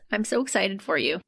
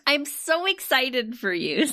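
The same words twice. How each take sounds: First: It is said flatly, without audible excitement. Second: It is said with an overdone, creepy enthusiasm. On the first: The speaker does not seem truly excited. "you don't sound it" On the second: The excitement seems forced and unsettling. "Now you sound creepy"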